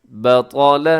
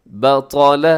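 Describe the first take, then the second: The two takes are said the same way.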